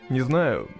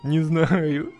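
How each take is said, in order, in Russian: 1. Сказано лениво, монотонно. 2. Сказано в шоке, ошарашенно. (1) "Опять как-то лениво" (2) "Ну надо в ахуе это сказать"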